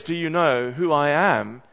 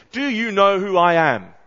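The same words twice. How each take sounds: First: Said in the usual way. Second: Loud, higher-pitched interrupting shout; pompous, pushy outburst; imitated shout. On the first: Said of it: "Well, as he says". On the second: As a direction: shout over someone like a self-important VIP. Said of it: "he shouts over her and he says".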